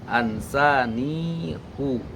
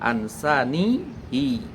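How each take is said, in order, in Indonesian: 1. Vokal akhir setelah h adalah u. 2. Vokal akhir setelah h adalah i. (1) "dibacanya ansanihu" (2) "Tidak dibaca ansanihi"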